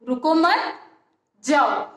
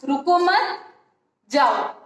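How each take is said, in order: Both takes have the same delivery.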